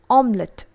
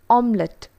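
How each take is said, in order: The two takes are said the same way.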